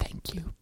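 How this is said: It is whispered, barely voiced at all.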